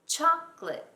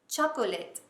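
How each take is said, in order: First: The word is said with two syllables. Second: The word is said with three syllables. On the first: The speaker calls it right. "I swallow the O. I say it as two syllables" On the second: The speaker calls it wrong. "It's not chocolate"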